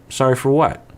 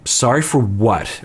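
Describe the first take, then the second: First: It sounds warm and genuinely curious. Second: It sounds curt and dismissive. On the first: A sincere request for clarification. The speaker calls it right. "the same words, just in a different tone" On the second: The apology is being challenged. The speaker calls it wrong. "it was absolutely her tone"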